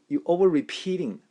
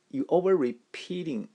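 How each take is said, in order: Both takes have the same delivery.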